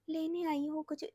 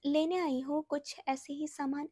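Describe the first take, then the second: First: Very soft, feeble murmur; soft imitation of a weak, tired woman; faint weak voice. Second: A first, milder take of the faint voice; soft weak voice. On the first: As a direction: barely get the words out, drained. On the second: Retold or imitated. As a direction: speak as if too tired to talk. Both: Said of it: "ऐसे करके literally".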